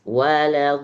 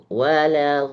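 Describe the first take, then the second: The two takes are said the same way.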